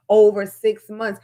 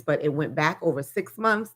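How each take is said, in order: First: "Over six months" slow and louder, each word hit; stress on over six months. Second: Said in the usual way. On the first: Shown as a demonstration. Repeating the total to make viewers hear it, slow and emphatic. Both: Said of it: "Do you hear this?".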